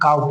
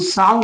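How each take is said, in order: First: The word begins with a k sound. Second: The word begins with an s sound. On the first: The speaker calls it right. "बल्कि काउ पढ़ेंगे" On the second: The speaker calls it wrong. "हम साउ नहीं पढ़ेंगे"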